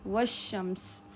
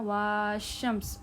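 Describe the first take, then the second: First: The first vowel is short, joined to sh. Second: The first vowel is drawn out long. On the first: The speaker calls it right. "बल्कि क्या पढ़ना है" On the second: The speaker calls it wrong. "वहाँ आपने ऐसे नहीं पढ़ना"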